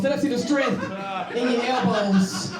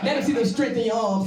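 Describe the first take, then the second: First: Drawn-out joking elbows line; slow mock emphasis. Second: Said in the usual way. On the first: Shown as a demonstration. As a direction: stretch the words out for the joke.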